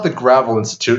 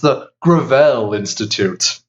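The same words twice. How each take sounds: First: Gravel is said in the plain, ordinary way. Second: Gravel is said in a fancy, posh way. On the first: It is just ordinary gravel. The speaker calls it wrong. "It's not the Gravel Institute" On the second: It is rebranded as premium for rich people. The speaker calls it right. "it's fancy gravel"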